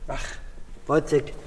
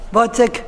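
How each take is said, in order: First: Wozzeck said low and soft; quiet stage murmur of Wozzeck; softly spoken. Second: Wozzeck called out high and loud; stage call of Wozzeck. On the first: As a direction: drop the voice on Wozzeck, lower and softer. Acted scene, name said again softly. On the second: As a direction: cry out Wozzeck, higher and louder. Acted scene, calling out name. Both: Acted.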